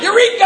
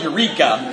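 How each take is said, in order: First: High, loud cry of discovery; yelled Eureka. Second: Said in the usual way. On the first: Retold or imitated. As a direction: holler it like a sudden breakthrough. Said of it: "he yelled".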